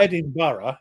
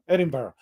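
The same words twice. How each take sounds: First: Every syllable is said out fully and carefully. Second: The syllables are squeezed together quickly. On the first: "You can say Edinburgh if you're posh" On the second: "jammed all together"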